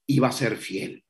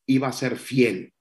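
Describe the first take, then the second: No difference in how they are said.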